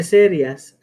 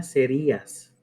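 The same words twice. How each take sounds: First: SERIAS as SE-rias, stress on SE; without hiatus. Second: SERÍAS as se-RÍ-as; with hiatus. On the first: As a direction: say serias in two syllables. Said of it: "que en vez de". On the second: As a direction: say serías with stress on the í. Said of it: "ahí diga". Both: Shown as a demonstration.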